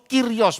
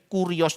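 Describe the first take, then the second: First: The first vowel sounds like 'ee'. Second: The first vowel sounds like 'oo'. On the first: The speaker calls it right. "U itu dibaca i, ... kirios baca betulnya" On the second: The speaker calls it wrong. "Tidak ada lafal u dalam Yunani"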